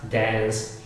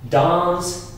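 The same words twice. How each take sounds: First: The vowel is a flat 'a' as in cat. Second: The vowel is a long open 'ah' sound. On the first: "American English" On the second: "In British English, it is typical"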